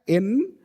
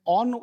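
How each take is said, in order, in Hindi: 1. स्वर पूरा है, यह 'eh' जैसी आवाज़ है। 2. स्वर कमज़ोर और हल्का है। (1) "एन ये आपका स्ट्रॉन्ग फॉर्म होता है" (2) "ऑन वीक फॉर्म होता है"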